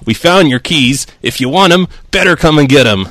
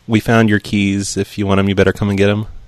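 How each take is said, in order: First: It is said in the deputy's put-on voice. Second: It is said in the speaker's own voice.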